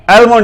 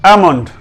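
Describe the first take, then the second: First: एलमोंड with the l sounded, higher; wrong pronunciation. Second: एमंड with no l at all; silent l. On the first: Teacher warns learners off this reading, wrong pronunciation. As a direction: start एलमोंड with "el". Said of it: "एलमोंड नहीं पढ़ना". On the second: Teacher gives the proper reading, silent l. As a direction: say एमंड straight from vowel to m. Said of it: "एल इसमें silent है". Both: Shown as a demonstration.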